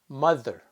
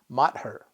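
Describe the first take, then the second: First: The middle consonant is a th sound. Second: The middle consonant is a plain t sound. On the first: The speaker calls it right. "That pronunciation is th" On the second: The speaker calls it wrong. "we don't pronounce it as matter"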